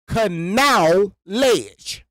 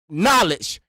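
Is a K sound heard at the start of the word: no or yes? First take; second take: yes; no. First: The word starts with a K sound, like canal. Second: The word starts with an N sound, no K. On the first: "pronounce it out" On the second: "they want you to say knowledge"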